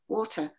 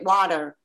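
First: It is said in a non-American accent. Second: It is said in an American accent.

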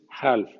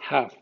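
First: The L sound is pronounced in the word. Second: The L sound is silent in the word. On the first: The speaker calls it wrong. "no es half" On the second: The speaker calls it right. "en ALF la L no existe"

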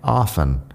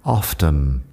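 First: The word is said without a T sound. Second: The word is said with a clear T sound. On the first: "con una T ahí que yo no pronuncio" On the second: "pronuncian la T en often, así que lo dicen often"

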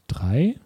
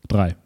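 First: The voice rises at the end. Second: The voice falls at the end.

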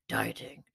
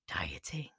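First: It is said in a put-on deep voice. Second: It is said in her normal voice.

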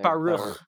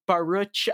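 First: The word ends with a throaty rasping sound. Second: The word ends with an English ch sound. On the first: The speaker calls it right. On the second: The speaker calls it wrong.

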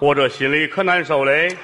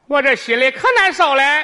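First: It is said in a male voice. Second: It is said in a female voice.

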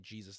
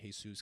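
First: The name begins with a J sound. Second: The name begins with an H sound. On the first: "they don't say Jesus" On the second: "they say Jesus, because the J is a huh"

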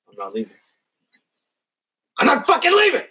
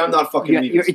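First: The line is said with strong emphasis. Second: The line is said with little emphasis.

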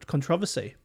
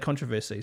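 First: It is said the way Australians say it. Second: It is said in the speaker's own way.

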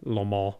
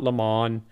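First: It is said with a French accent. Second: It is said with an English accent.

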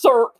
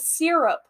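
First: The word is squeezed into one syllable. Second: The word is said with two full syllables. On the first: The speaker calls it wrong. "She just goes serp" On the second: The speaker calls it right. "It is syrup"

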